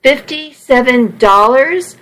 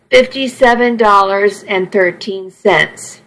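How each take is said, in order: First: Higher, rising incredulous question; grinding it out. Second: Understated, matter-of-fact admission of the sum; reluctant admission. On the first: Trucker repeating the stranded woman's sum, exasperated disbelief. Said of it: "I ground out". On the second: Stranded woman admitting her money to the trucker, understated. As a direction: admit it in a level voice. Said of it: "she admitted". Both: A narrator's reading.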